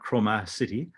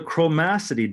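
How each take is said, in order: First: It sounds like the two words Chroma City. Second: It is said as one single word. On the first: The speaker calls it wrong. "not chromacity. it's not a place to visit" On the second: The speaker calls it right. "that's how you pronounce that word"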